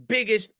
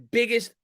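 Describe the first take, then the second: No difference in how they are said.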